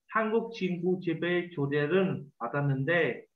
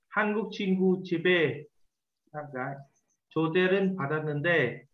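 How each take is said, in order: First: It is read quickly as one smooth stretch. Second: It is read slowly with pauses between phrases. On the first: "Nếu mà chúng ta mà đọc được nhanh thì chúng ta sẽ là" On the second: "khi chúng ta đọc chậm ấy, thì chúng ta đọc theo cái vạch xanh"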